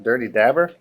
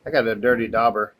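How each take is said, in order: First: "dabber" with a short a like "dab", rising at the end; saying dabber, questioning. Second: "dauber" with a broad aw vowel, like "daw-ber"; saying dauber. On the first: Crafter doubting the label's word, trying dabber with a question. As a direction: try "Dirty dabber?" with a flat a, unsure. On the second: Crafter reading the label to viewers, saying dauber. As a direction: say "dirty dauber" with an open aw sound. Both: Shown as a demonstration. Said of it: "Does that say dauber or dabber?".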